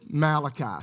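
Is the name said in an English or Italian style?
English. The name is said with a plain English pronunciation. The speaker calls it right. "really it's Malachi"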